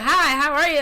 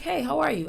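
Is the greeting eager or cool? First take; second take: eager; cool. First: The greeting sounds gushing and overly eager. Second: The greeting sounds polite but cool and reserved.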